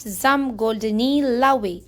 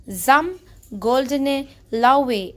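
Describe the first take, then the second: First: "Zum goldene Laue" slow, read as the wrong version; teacher reads the mistaken version for contrast, slow; slow wrong German phrase. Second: "Zum goldene Laue" slow, each word spelled out; teacher reads the right German phrase, slow and careful; slow corrected German phrase. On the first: Slow contrasting German reading. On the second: Slow careful German reading. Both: Shown as a demonstration. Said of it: "and not".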